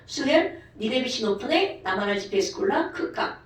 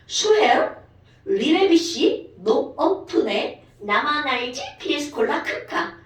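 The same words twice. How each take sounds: First: It is said quickly. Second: It is said at a normal pace.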